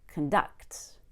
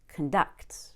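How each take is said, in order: First: The stress is on the second syllable. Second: The same.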